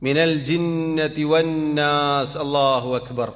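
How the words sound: The verse runs straight into the phrase. The speaker calls it wrong. "അങ്ങനെ പറയരുത്"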